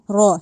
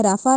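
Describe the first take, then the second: First: را said thick with rounded lips; heavy ra. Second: رافع with a thin, stretched first a; wrong long ra. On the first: Teacher models heavy rounded را. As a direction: round the mouth for a full heavy را. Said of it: "موٹا کر کے پڑھنا ہے". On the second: Teacher shows wrong رافع with thin ra. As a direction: say رافع as a flat long raa. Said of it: "رافع نہیں کہا جائے گا". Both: Shown as a demonstration.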